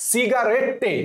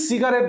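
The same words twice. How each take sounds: First: "সিগারেটে" as si-ga-ret-te, final TTE sounded; spelling pronunciation. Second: Said in the usual way. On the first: Shown as a demonstration. Teacher shows the spelling trick, "সিগারেটে" with sounded ending. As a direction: add a clear "te" ending to "সিগারেটে". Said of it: "কি বলছি?". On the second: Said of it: "সিগারেটকে এখন উচ্চারণ করবো".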